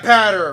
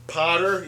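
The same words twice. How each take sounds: First: "patter" with a flat a as in ladder; corrected name. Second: "Potter" with a round o vowel, the wrong way; wrong name. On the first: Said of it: "it's like ladder, but". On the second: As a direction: say "Potter" like pot. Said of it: "I always get your name wrong". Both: Shown as a demonstration.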